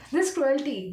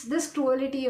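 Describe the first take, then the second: First: Cruelty as "CRU-el-tee"; corrected cruelty. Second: Cruelty as four-syllable "cru-AL-ity"; mispronounced cruelty. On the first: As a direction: say cruelty with a short unstressed middle, "CRU-el-tee". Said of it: "pronounce the word properly". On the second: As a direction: make cruelty rhyme with reality. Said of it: "I'm not able to pronounce that properly". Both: Real, not acted.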